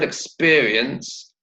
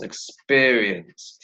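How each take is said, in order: First: Said in the usual way. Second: "Experience" slowly drawn out in syllables; "Experience" very slow, falling at the end. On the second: Shown as a demonstration. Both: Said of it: "How many syllables?".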